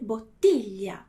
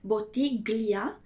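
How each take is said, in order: First: The middle is said with one soft LH sound. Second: The middle is said with separate hard G and L. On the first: The speaker calls it right. "mas eu devo dizer / Ele vai ter o som de L H" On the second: The speaker calls it wrong. "eu não posso dizer"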